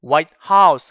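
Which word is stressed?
house. The stress falls on the second word. "하얗게 칠해진 집"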